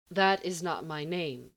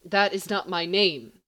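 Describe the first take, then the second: First: Said in the usual way. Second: Louder, firmer correction; insistent repeat. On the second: A narrator's reading. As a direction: press it harder each time. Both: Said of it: "he repeats for the third time".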